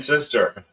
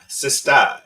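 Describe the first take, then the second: First: The word ends with a clear r sound. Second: The word ends with an open 'ah' sound.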